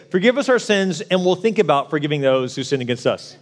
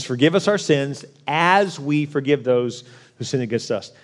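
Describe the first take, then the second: First: A mocking, laughing misquote; mock wrong version. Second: "as" stressed against "Forgive us our sins". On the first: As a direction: say the lazy version with a chuckle. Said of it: "this doesn't say". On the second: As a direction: lean on "as" to show the condition. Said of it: "It says". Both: Shown as a demonstration.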